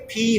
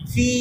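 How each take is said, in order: First: The first sound is made with both lips. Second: The first sound uses upper teeth on lower lip. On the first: The speaker calls it wrong. "আপনারটা দুই ঠোঁট থেকে ফি হচ্ছে" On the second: The speaker calls it right. "উপরের দাঁত নিচের ঠোঁট ফি"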